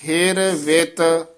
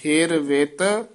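First: Said in the usual way. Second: ਹਿਰ ਵਿਤ with ਵਿਤ said light and soft, not hard; ਵਿਤ ਪੋਲਾ, ਹਲਕਾ ਬੋਲੋ. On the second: Shown as a demonstration. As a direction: say ਵਿਤ gently with a light ਵ and no push, rising a little at the end. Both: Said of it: "ਇਹ ਵਿਤ ਪੋਲਾ ਹੀ ਬੋਲਣਾ ਹੈ".

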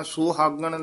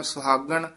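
First: "ਸੁਹਾਗਣ" with a long oo, soo-haagan; wrong vowel demo. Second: "ਸੁਹਾਗਣ" with a very short first vowel, s'haagan; wrong vowel demo. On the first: Teacher warning learners, "ਸੁਹਾਗਣ" wrongly as soo-haagan. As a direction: overlengthen the first vowel of "ਸੁਹਾਗਣ". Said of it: "ਇਹ ਦਰਮਿਆਨਾ ਜਿਹਾ ਉਚਾਰਨ ਕਰਨਾ ਹੈ". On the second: Teacher warning learners, "ਸੁਹਾਗਣ" wrongly as s'haagan. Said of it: "ਨਾ ਕਹਿਣਾ". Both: Shown as a demonstration.

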